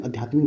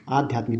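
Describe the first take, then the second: First: आध्यात्मिक starting with short uh; wrong short vowel. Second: आध्यात्मिक starting with long aa; correct long vowel. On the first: Teacher showing the mistake, short first vowel. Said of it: "नहीं होता है". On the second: Teacher correcting the word, long first vowel. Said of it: "होता है". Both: Shown as a demonstration.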